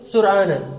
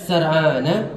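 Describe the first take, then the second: First: The first vowel is a u sound. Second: The first vowel is an a sound. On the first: "boleh sur'ana" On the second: "Boleh kita baca sar'ana"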